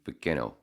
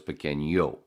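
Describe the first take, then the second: First: The middle consonant is a plain n sound. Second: The middle consonant is an ny sound. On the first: "without the squiggly, it would just be pequeño" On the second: "with the squiggly, it goes pequeño"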